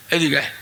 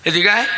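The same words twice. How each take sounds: First: Said in the usual way. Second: Insistent rising command; repeated summons. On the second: Retold or imitated. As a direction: call them over with a rising end.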